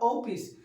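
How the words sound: It is said the Bihar regional way. "Bihar में बोलते हैं लोग ओपिस"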